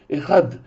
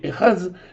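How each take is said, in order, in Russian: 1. Слово заканчивается на звук d. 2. Слово заканчивается на звук z. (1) "как мы ее сегодня произносим" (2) "правильное прочтение в древнем иврите"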